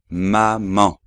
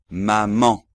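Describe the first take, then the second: The two takes are said the same way.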